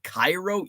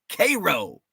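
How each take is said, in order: First: It is said the common, widely known way. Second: It is said the local Illinois way. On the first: It refers to the city in Egypt. "Have you ever heard of Cairo, Egypt?" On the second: It refers to the Illinois town. "In Illinois, we have Cairo"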